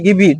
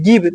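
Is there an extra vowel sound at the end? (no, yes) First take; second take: yes; no. First: An extra e vowel is sounded after the v. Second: It ends on the v with no vowel. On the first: The speaker calls it wrong. "ना कि गिव ही" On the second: The speaker calls it right. "क्या पढ़ेंगे? गिव"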